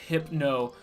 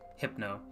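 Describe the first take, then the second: First: The start sounds like the start of 'hypnosis'. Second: The start does not sound like 'hypnosis'. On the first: The speaker calls it right. "It's hypno, like hypnosis" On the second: The speaker calls it wrong. "people made fun of me on TikTok about how I pronounced"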